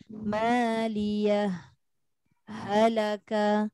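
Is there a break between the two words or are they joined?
break. There is a brief break between the two words. The speaker calls it right. "Dia terputus. Maksudnya dia saktah lah tu"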